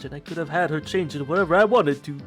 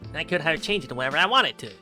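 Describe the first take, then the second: First: It is read in a plain voice. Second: It is read in a goofy voice.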